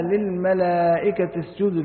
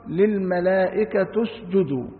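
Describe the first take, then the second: First: Said in the usual way. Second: للملائكة اسجدوا read as "lil-malaa'ikatu-sjudu"; "u" vowel on the final ت of للملائكة; damma on the taa. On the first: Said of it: "قرأ أبو جعفر". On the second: Shown as a demonstration. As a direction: end للملائكة on a "tu" sound, linked into اسجدوا. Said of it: "بضم التاء".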